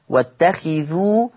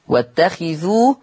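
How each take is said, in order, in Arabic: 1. الخاء تليها حركة 'i'. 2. الخاء تليها حركة 'i'.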